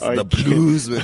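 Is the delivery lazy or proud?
proud. It is said in a proud, emphatic way. The speaker calls it right.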